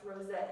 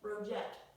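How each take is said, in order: First: The name ends with a vowel sound. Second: The name ends with a t sound. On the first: The speaker calls it right. "So that last name is pronounced Rose" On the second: The speaker calls it wrong. "I was saying rojette or something like that"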